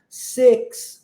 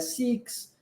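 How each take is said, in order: First: The vowel sounds close to 'eh'. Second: The vowel sounds like 'ee'. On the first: The speaker calls it right. "a gente vai usar o I com som de E" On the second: The speaker calls it wrong. "Não é six"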